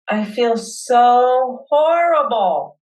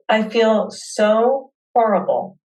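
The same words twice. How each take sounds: First: Slow and drawn out, letting the hurt in; slow heartfelt admission; really feeling it. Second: Said in the usual way. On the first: Acted. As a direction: lean into the feeling, stretch horrible. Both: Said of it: "Let yourself really feel it".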